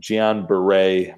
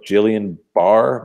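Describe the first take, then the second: First: The first word sounds like 'Gee-on'. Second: The first word sounds like 'Jillian'. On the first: The speaker calls it right. "my doctor friends are telling me is the appropriate pronunciation" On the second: The speaker calls it wrong. "looks like it's spelled like Jillian Barr"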